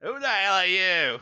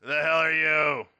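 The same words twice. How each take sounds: First: Put-on failed New Jersey accent, sounds British; high, bad New Jersey accent. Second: Cranky, pitched higher. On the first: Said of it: "he needs to do, like, a New Jersey accent". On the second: Acted. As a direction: snap it like a cranky station guard. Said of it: "you hear a, a cranky voice".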